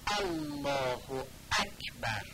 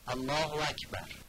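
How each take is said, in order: First: The glottal stops are overly forceful and exaggerated. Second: The glottal stops are weak or barely pronounced. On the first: "به این صورت میگن الله اکبر، اینم افراد است" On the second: "بعضی دقت ندارم و اینجوری میخونم الله اکبر، یعنی الف الله رو خوب بیان نمی کنم"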